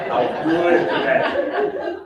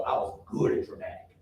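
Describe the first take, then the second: First: Amused, drawn-out laughing repeat. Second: Said in the usual way. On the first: Real, not acted. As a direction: repeat it laughing, louder and slow.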